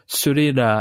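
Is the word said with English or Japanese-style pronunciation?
Japanese. It is said with Japanese-style s and r sounds. "It's the L and R sounds, a nightmare"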